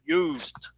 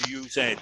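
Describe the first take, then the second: First: The word ends with a plain d sound. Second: The word ends with an extra ed syllable. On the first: The speaker calls it right. "es used" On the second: The speaker calls it wrong. "No es ed, no es used"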